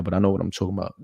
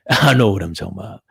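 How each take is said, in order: First: Said in the usual way. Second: Tipsy giggle through the words; laughing while insisting. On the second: Real, not acted. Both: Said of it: "I'm a little tipsy".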